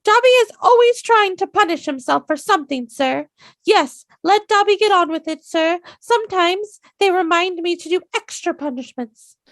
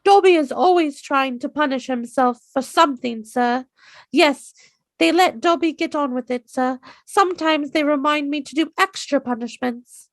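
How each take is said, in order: First: Squeaky very high elf voice, far too high; high-pitched Dobby. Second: Higher, eager house-elf voice, toned down from the squeak; a more controlled Dobby, still high; better Dobby. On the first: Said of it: "A little bit too high-pitched". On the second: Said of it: "That one was a lot better". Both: Retold or imitated.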